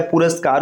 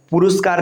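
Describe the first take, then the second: First: पुरस्कार said as "puraskaar"; correct middle vowel. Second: पुरस्कार said as "puruskaar"; wrong middle vowel. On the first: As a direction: put an "a" after r in पुरस्कार. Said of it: "होता है". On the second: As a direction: put a "u" after r in पुरस्कार. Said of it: "नहीं होता है". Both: Shown as a demonstration.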